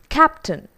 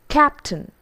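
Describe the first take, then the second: The two takes are said the same way.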